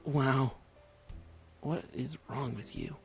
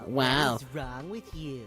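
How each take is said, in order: First: It is said in a plain voice. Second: It is said in a nasty mocking voice.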